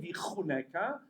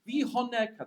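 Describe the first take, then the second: First: The middle consonant is a throaty ch. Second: The middle consonant is a soft breathy h. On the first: God will be gracious to you. The speaker calls it right. "They don't say vichuneka" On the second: God will give you wealth. The speaker calls it wrong. "They can't say chet klal"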